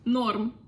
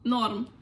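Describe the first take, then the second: First: The word is cut to one syllable. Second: The same.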